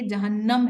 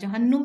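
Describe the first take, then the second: First: The vowel after the n is 'a'. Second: The vowel after the n is 'u'. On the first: This is how it is read in the Quran. The speaker calls it right. "ये जहन्नम है लफ्ज, नून पर जबर होता है" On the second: This is how Urdu speakers usually say it. The speaker calls it wrong. "जहन्नुम नहीं होता। हम उर्दू वाले से हमेशा जहन्नुम बोलते हैं"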